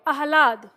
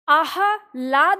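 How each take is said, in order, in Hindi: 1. ‘ह’ की ध्वनि जल्दी से बोली जाती है। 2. ‘ह’ की ध्वनि पूरी बोली जाती है। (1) "ह जल्दी से बोलेगा" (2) "आह्लाद नहीं पढ़ेंगे, पूरा ह नहीं पढ़ेंगे"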